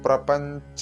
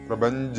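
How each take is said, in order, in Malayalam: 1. നാസികയ്ക്ക് ശേഷം അഘോഷമായ 'ch' ശബ്ദമാണ്. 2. നാസികയ്ക്ക് ശേഷം ഘോഷമുള്ള 'j' ശബ്ദമാണ്. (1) "ചൊല്ലുമ്പോൾ ശ്രദ്ധിക്കേണ്ടത്" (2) "എന്ന് ചൊല്ലരുത്"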